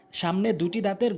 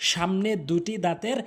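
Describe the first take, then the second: No difference in how they are said.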